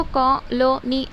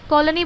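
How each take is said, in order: First: colony in three separate parts, कॉ, लो, नी; divided into syllables. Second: Said in the usual way. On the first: Shown as a demonstration. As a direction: break colony after each syllable. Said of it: "उसको colony ऐसा पढ़ना पड़ता". (Colony को तीन हिस्सों में बाँटकर) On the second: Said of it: "पूरा एक ही मर्तबा नहीं बोल सकते".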